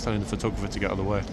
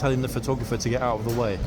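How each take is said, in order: First: It is said at a normal volume. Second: It is said at a louder volume.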